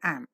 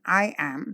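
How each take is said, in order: First: It is said as one contracted word. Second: It is said in full as two words. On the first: The speaker calls it right. "say am" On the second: The speaker calls it wrong. "Instead of saying I am"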